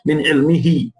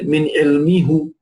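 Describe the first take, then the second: First: The last word ends in an 'ee' vowel. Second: The last word ends in an 'oo' vowel. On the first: The speaker calls it right. "it takes a kasra just to facilitate the reading" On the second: The speaker calls it wrong. "We don't say min ilmihu. It's very difficult in Arabic"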